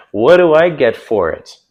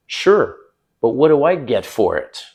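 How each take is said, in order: First: Louder smiling repeat; smiling tease. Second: Playful teasing tone. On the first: Shown as a demonstration. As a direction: say it grinning. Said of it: "with a smile on my face". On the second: Retold or imitated. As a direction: tease her with a smile. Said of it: "I'm kinda teasing her".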